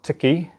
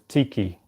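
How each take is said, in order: First: The first vowel is not an 'ee' sound. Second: The first vowel is an 'ee' sound. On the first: The speaker calls it wrong. "The pronunciation for that is not tiki" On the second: The speaker calls it right. "it's tiki, because the I. The I in Te Reo Māori is pronounced e"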